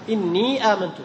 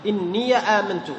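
First: Long held "innee" in إني before آمنت; sukun with madd. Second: A vowel after the ya of إني; fatha on ya. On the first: Teacher shows still-ya reading, sukun with madd. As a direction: stretch the ee of إني, no a after it. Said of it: "من يسكن يمد". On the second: Teacher contrasts open-ya reading, fatha on ya. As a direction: slowly say إني as "inniya", no long ee. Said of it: "والذي يفتح خلاص". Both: Shown as a demonstration.

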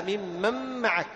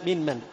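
First: ممن معك with the n absorbed into a held m; merged into meem. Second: من من as two separate words; original unmerged form. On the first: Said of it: "إدغام النون أيضًا في الميم". (إدغام النون في الميم في ممن معك) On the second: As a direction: give من من its unassimilated n. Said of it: "من من أصلها". (نطق من من على أصلها دون إدغام) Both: Shown as a demonstration.

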